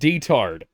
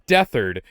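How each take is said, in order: First: The first syllable is said as 'deh'. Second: The first syllable is said as 'death'. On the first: The speaker calls it wrong. "they pronounce it" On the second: The speaker calls it right. "it's clearly supposed to be"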